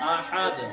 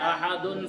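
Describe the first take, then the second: First: The word stops on a bouncing, echoing d. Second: The word ends with a vowel and n sound.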